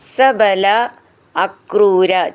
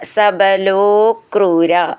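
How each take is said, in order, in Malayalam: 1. രണ്ട് വാക്കുകളും വേറെ വേറെയായിട്ടാണ് പറയുന്നത്. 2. വാക്കുകൾ നീട്ടിയ lo ചേർത്താണ് പറയുന്നത്.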